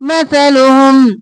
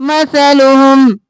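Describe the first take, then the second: The two takes are said the same way.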